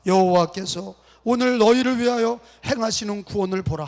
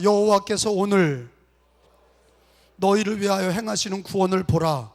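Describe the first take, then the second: First: Joined-up reading. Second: Broken-up reading. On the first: Pastor leading congregation in unison reading, joined up. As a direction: read through without the long break after "오늘". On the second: Pastor leading congregation to follow along, broken into phrases. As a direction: split it after "오늘" for repeating. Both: Shown as a demonstration. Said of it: "붙여서 읽읍시다".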